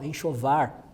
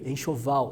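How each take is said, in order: First: The word ends with an R sound. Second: The word ends with an L sound.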